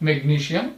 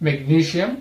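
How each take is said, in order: No difference in how they are said.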